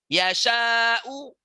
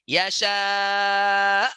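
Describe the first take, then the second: First: The word ends with a short vowel. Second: The word ends on a consonant.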